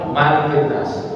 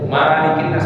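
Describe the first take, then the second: First: The first vowel of malik is short. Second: The first vowel of malik is long. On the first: The king rules over living people. The speaker calls it right. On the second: People are owned like material things. The speaker calls it wrong.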